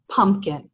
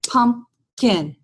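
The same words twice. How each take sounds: First: Said in the usual way. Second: "pumpkin" split into its two syllables, "pump" then "kin"; syllable demo. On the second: Shown as a demonstration. Teacher modelling syllables for students: "pump-kin" split in two. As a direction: tap out "pump-kin" slowly for the class. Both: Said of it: "I want them to be able to go".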